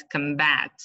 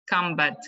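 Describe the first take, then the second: First: "combat" as the verb, com-BAT; last-syllable stress. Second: "Combat" as the noun, COM-bat; first-syllable stress. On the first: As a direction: lean on the end of "combat". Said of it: "The stress is on the last". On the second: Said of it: "on the first syllable". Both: Shown as a demonstration.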